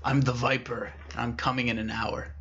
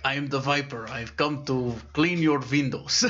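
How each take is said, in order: First: Lightly voiced raspy phone menace; hint at a raspy, ominous caller. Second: Lightly voiced old window cleaner with a v for w; little old man. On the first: Mystery caller warning the office worker, lightly raspy. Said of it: "it was a very raspy voice". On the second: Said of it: "there's this little old man with a bucket".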